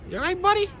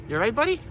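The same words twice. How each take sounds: First: Very high, squeaky-cute question; high animal talk. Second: Raised pitch, lifting at the end; gentle animal talk. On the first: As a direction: pitch it way up, as to a pet. Repeats it much higher to duck. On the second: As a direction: check on a little animal, voice lifted. Checks on a duck, first take. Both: Real, not acted.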